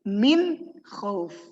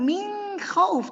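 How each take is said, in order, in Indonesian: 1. Bunyi n diucapkan dengan jelas dan tegas. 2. Bunyi n melebur ke bunyi berikutnya. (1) "tapi min khauf" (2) "Jadi bukan min khauf"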